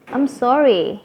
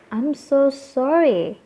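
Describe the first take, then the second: First: "I'm sorry" higher, with "sorry" falling; quick everyday apology, lifting then dropping "sorry"; maaf ringan. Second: "I'm so sorry" high and slow, "so" stretched; benar-benar minta maaf. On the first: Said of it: "kalau kayak kita nyenggol orang". ("I'm sorry" ringan dengan nada naik lalu turun) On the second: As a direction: draw out "so sorry" in an emphatic apology. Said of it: "kalau yang benar-benar kalian merasa". ("I'm so sorry" tinggi, pelan dan sangat ditekankan) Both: Shown as a demonstration.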